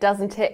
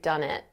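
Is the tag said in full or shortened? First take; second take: full; shortened. First: Both words are said fully with the t sounds. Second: The words are squeezed together into a shortened form.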